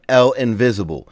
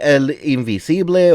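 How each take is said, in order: First: The name is said with English-style pronunciation. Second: The name is said with Spanish-style pronunciation. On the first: The speaker calls it wrong. "they pronounce it just like that in the game" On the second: The speaker calls it right. "It's supposed to be"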